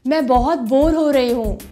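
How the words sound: The voice is medium-pitched.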